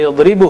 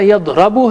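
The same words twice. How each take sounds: First: यदरिबु with a clear i in the middle; correct vowel form. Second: यदरबु with a short a in the middle; wrong vowel form. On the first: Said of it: "ये यदरिबु है". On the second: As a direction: say यदरबु as the rejected form, slower. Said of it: "ये न यदरबु है". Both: Shown as a demonstration.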